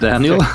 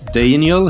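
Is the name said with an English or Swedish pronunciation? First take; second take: English; Swedish. First: The name is said with an English pronunciation. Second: The name is said with a Swedish pronunciation. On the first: The speaker calls it right. "instead of Daniel" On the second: The speaker calls it wrong. "I happen to say Daniel"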